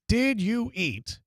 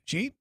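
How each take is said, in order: First: Three separate words are clearly pronounced. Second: The words merge into one short syllable. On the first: "I took three words" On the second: "made them into one non-existent word"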